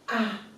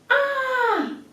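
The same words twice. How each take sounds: First: It sounds calm, without strong surprise. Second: It sounds very surprised, with a sharp falling tone. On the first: The speaker has simply understood something. "不是很吃惊的样子" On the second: The speaker is greatly astonished. "四声就是很吃惊的样子"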